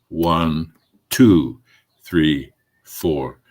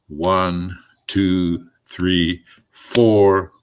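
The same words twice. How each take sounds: First: The emphasis falls on the word two. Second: The emphasis falls on the word four. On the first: "I'm going to put the emphasis on the two" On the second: "put the emphasis on the four"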